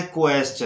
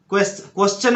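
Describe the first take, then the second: First: क्वेश्चन with a clear kw, "ko-eschan"; correct pronunciation. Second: क्वेश्चन without the w, "keschan" or "koschan"; common mispronunciation. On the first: Shown as a demonstration. Teacher correcting Indian speakers, क्वेश्चन with kw sound. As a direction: say क्वेश्चन opening on a rounded "kwe". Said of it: "यहाँ पे बोलना है". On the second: Retold or imitated. Teacher quoting Indian speakers' mistake, क्वेश्चन without w. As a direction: say क्वेश्चन with a bare k, no w glide. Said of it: "बोलते हैं जो कि गलत है".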